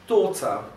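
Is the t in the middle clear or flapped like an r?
clear. The middle t is clear, with a weak ending. This is the British pronunciation. "no britânico, esse T vai ser pronunciado literalmente como um T, e esse R final não vai ser pronunciado"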